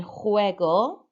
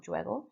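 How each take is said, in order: First: Juego said HWEH-go, Spanish j breathy h; correct Spanish. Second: Juego said with English zh sound; wrong English way. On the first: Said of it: "should have been". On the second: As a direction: juego mispronounced, soft zh start. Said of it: "not juego". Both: Shown as a demonstration.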